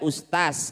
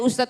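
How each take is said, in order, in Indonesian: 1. Konsonan akhirnya adalah bunyi s. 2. Konsonan akhirnya adalah bunyi z. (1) "karena orang Sulawesi jadi es semua" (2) "Jangan pernah cari ustadz"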